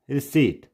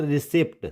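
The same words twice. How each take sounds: First: Receipt as ri-SEET; silent P. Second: Receipt as ri-SEPT; P sounded. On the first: Teacher gives the correct reading, silent P. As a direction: say receipt with a long ee, no p. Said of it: "it's receipt". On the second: Teacher shows the wrong reading, P sounded. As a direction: misread receipt with a p before the t. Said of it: "it's not receipt". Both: Shown as a demonstration.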